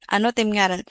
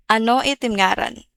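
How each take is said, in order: First: "Ano't imngaran" with "ano it" run together into "anot"; short form. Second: "Ano it imngaran" with "it" said as its own separate word; full form. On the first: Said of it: "Some people would say". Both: Shown as a demonstration.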